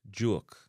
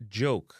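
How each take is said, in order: First: "joke" said as "juok"; Jamaican pronunciation. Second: "joke" with an English "oh" vowel; English pronunciation. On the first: Teacher giving the Jamaican version, "uo" in "joke". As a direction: give joke the Jamaican "uo" glide. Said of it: "would a be joke in a Jamaican". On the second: Teacher giving the English word first, English long O in "joke". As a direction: say joke as "johk". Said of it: "like joke in a English". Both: Shown as a demonstration.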